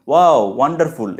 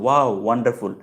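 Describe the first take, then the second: First: Louder exclamation of wonder; modelled exclamation. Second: Milder echo of the exclamation; understated learner's repeat of ওয়াও; repeating after. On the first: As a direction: demonstrate an amazed WOW as overheard. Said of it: "এরকম বলছে, শুনলাম". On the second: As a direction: echo what was just heard, practice-style. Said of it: "সাথে সাথে বলো". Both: Shown as a demonstration.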